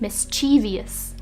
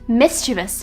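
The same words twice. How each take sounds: First: The word is said with four syllables. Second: The word is said with three syllables. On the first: The speaker calls it wrong. "pronouncing this word with four syllables" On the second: The speaker calls it right. "drop it down to three. It's pronounced mischievous"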